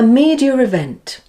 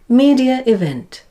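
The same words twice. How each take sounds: First: An r sound links the two words. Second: No r sound, a small pause between words. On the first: "we say a r sound to link the words together" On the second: "without the intrusive R"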